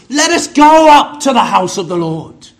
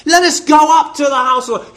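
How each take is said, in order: First: Loud, ringing proclamation of the psalm; a proud, louder quote of the psalm; quoting the psalmist. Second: Quicker, eager restating of the line; brisk, keen echo of the psalm; eager repeat. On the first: Retold or imitated. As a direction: call it out like David rallying the people. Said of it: "David said in the Psalms". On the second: Shown as a demonstration. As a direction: urge the congregation on, pressing forward.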